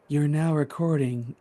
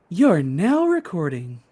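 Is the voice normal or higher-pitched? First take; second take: normal; higher-pitched. First: It is said in a normal voice. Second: It is said in a higher-pitched voice.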